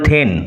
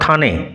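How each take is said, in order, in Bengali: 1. এই স্বরধ্বনিটি 'rain'-এর স্বরধ্বনির সঙ্গে মেলে। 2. এই স্বরধ্বনিটি 'rain'-এর স্বরধ্বনি থেকে আলাদা। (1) "যেমন রেন উচ্চারণ হয় তেমনি হবে থেন" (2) "নট থানে"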